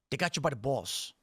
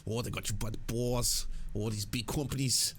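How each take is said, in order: First: Jersey accent. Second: Lightly imitating a Jersey accent. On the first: Real, not acted. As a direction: let the Jersey accent slip out. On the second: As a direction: mimic the host's Jersey accent, playfully. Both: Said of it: "the Jersey accent comes out".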